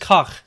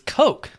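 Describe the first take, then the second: First: It is said with a German pronunciation. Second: It is said with an American pronunciation. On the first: "The official German pronunciation" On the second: "But in America"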